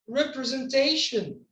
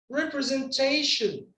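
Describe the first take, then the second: No difference in how they are said.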